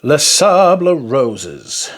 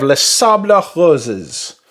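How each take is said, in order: First: "Les Sables Roses" stretched slowly, with an English R on Roses; "Les Sables Roses" said very slowly, Roses anglicised; drawn-out restatement. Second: "Les Sables Roses" with a throaty French R on Roses; "Les Sables Roses", French-style, Roses starting in the throat; affected French pronunciation. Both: Real, not acted. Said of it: "Don't know why I said it like that".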